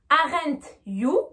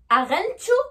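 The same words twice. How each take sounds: First: The t and y are pronounced separately. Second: The t and y merge into a ch sound. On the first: The speaker calls it wrong. "c'est vraiment une prononciation pure française" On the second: The speaker calls it right. "on va rajouter entre les deux le son C H"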